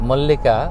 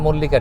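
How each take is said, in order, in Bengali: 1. এটি আমেরিকান উচ্চারণে বলা হয়েছে। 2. এটি বাঙালি উচ্চারণে বলা হয়েছে। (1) "আমেরিকানরা একটু অন্য অ্যাকসেন্টে অন্যভাবে বলে" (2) "আমার আমার কাছে এটা"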